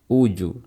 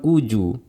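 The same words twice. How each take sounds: First: The bounce after j is only slightly u-like. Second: The bounce after j becomes a full u vowel. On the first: The speaker calls it right. "tapi uju" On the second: The speaker calls it wrong. "Bukan uju"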